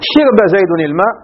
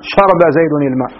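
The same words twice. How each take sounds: First: The verb has i first, moved from the middle. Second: The verb keeps a first, dropping its middle vowel. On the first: The lightening is done by transfer. "بالنقل" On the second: The lightening is done by deletion. "بالحذف"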